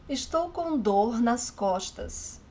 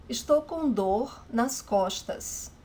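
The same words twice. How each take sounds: The two takes are said the same way.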